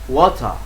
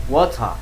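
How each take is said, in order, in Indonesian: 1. Aksen Inggris, huruf R di akhir tidak diucapkan. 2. Aksen Inggris, huruf R di akhir tidak diucapkan.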